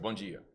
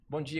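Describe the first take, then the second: First: It is said coldly, without feeling. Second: It is said warmly, with real feeling.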